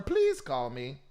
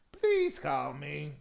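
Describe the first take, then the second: First: Said in the usual way. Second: Please drawn out slowly, begging; slow pleading. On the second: Real, not acted. Host begging the singer to call in, slow plea.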